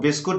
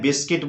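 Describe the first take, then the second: First: The second syllable sounds like 'kut'. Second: The second syllable sounds like 'kit'. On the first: The speaker calls it wrong. "गलती से आपको बिस्कुट नहीं बोलना है" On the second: The speaker calls it right. "बिस्किट बोलना है"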